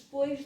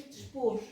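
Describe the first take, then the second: First: Said in the usual way. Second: "dispôs" with oi reduced to a long o; monophthong ending. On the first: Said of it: "eh, se monotongaram". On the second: Shown as a demonstration. Teacher showing old local speech, monophthong in "dispôs". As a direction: say "dispôs" without the i glide. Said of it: "em vez de depois".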